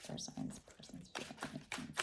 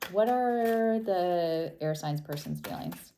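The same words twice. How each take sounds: First: A soft unvoiced whisper, barely audible; whispered to herself. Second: Said in the usual way. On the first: Real, not acted. Tarot reader whispering the question to herself. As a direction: breathe the words out to yourself.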